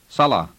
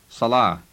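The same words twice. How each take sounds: First: The final vowel is short, stress on first syllable. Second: The final vowel is long, stress on last syllable. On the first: "with the a at the end being short, and with the accent on the first part of the word" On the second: "But more commonly, it is pronounced salah"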